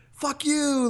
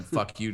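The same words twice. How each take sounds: First: High, drawn-out mock yell; joking yell. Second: Said in the usual way. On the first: Joker yells out the taxi window at a tip-seeker, mock yell. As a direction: call it out high, as a joking jeer. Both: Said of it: "I yell out the window".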